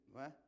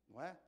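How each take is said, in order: No difference in how they are said.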